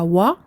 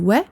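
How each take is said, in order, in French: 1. La syllabe se dit lourde, avec une voyelle sombre. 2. La syllabe se dit fine, avec une voyelle claire. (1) "non pas wa" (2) "un wa ou aminci"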